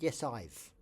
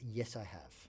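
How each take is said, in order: First: The words 'I have' are contracted to 'I've'. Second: The words 'I have' are said in full. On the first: The speaker calls it wrong. "you don't never say" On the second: The speaker calls it right.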